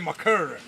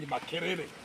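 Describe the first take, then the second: First: It is said in a put-on American accent. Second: It is said in a plain African accent. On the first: The speaker calls it wrong. "you will say" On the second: The speaker calls it right. "instead of saying"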